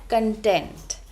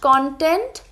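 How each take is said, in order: First: The stress is on the second syllable. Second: The stress is on the first syllable. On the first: It means feeling satisfied. "but content" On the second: It means material made for media. "It's not content"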